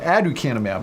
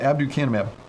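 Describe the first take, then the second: First: No 'b' sound follows the first vowel. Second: A 'b' sound follows the first vowel. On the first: The speaker calls it right. "I'm saying aducanumab" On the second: The speaker calls it wrong. "I was saying it wrong the whole time. I was putting a B in there"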